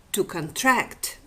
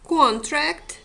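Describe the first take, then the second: First: "contract" slowly, with TRACT stressed; weak first syllable, strong second in "contract", con-TRACT. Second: "contract" with CON punched higher and louder; stress on first syllable. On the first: Lecturer contrasting the word pair, "contract" stressed on TRACT. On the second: Lecturer comparing stressed and unstressed syllables, "contract" stressed on CON. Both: Shown as a demonstration. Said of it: "compare stressed and unstressed syllables in".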